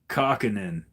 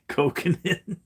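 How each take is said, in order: First: The first syllable sounds like 'cock'. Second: The first syllable sounds like 'coke'. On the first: The speaker calls it wrong. "they decide to pronounce it like cock" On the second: The speaker calls it right. "like Coke, like the pop"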